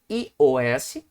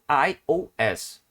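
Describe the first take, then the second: First: The letters are said with Portuguese sounds. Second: The letters are said with English sounds. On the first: "você pronuncia em português" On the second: "em inglês"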